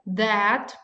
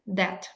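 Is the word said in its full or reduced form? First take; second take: full; reduced. First: The vowel is full and clearly stressed. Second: The vowel is reduced and unstressed. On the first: It points to something as a demonstrative. "As a strong form, we will pronounce it like that" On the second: It links a clause as a relative pronoun. "As a weakened form, this is that"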